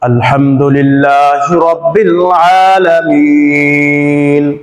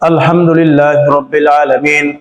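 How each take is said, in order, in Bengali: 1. এটি ধীরে ও শান্তভাবে পড়া হয়। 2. এটি দ্রুত ও তাড়াহুড়ো করে পড়া হয়। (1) "ধীরস্থিরভাবে আস্তে আস্তে" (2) "এটা কিন্তু আসলে সঠিক নিয়ম না।"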